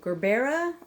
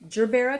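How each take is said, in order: First: It begins with a hard G sound. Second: It begins with a soft J sound. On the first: "like Gerber, like a Gerber baby, but with an A at the end" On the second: "because geranium it starts with G E R"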